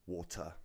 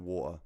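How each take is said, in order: First: The T in the middle is clearly pronounced. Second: The T in the middle is dropped. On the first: The speaker calls it right. "southerners will actually pronounce the T" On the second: The speaker calls it wrong. "I go water ... northerners don't"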